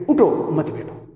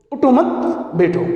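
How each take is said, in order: First: اٹھو set apart, مت بیٹھو joined and falling; اٹھو as its own command, then مت بیٹھو; pause after اٹھو. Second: اٹھو مت joined and raised, pause, then falling بیٹھو; high rising اٹھو مت, then بیٹھو set apart; pause after مت. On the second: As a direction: attach مت to اٹھو, break before بیٹھو. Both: Shown as a demonstration. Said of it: "دو معنی پیدا ہو جاتی ہے".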